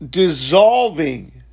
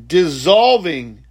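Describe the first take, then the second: No difference in how they are said.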